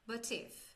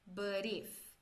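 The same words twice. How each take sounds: First: The t is pronounced as a clear t. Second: The t sounds like a quick soft d. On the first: This is the British way. "E no britânico" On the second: This is the American way. "esse T ele vai ter um sonzinho de R, esse R fraco paulista"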